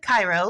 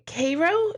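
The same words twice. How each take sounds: First: It is pronounced like the Egyptian city's name. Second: It is pronounced unlike the Egyptian city's name. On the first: This is how outsiders say the name. The speaker calls it wrong. "I said Cairo, like Egypt" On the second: This is the local name of the place. The speaker calls it right. "it's not called Cairo"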